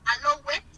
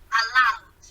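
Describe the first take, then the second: First: The ending is said as an extra syllable. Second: The ending joins the last syllable, no extra one. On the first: The speaker calls it wrong. "Please, not" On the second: The speaker calls it right.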